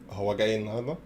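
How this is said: It is said with a question intonation. Is he coming today?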